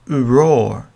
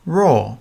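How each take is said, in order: First: It is drawn out with a small vowel first. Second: It is said quickly at normal speaking speed. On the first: "if you say it slowly, it sounds uroar" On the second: "when you say it naturally, it sounds perfect"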